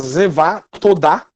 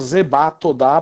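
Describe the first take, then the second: First: The first word is said with a v sound. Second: The first word is said with a b sound. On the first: "Zevá Todá seria a pronúncia mais correta" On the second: "ou Zebá Todá"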